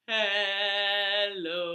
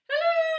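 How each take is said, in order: First: It is said in a low voice. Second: It is said in a high voice.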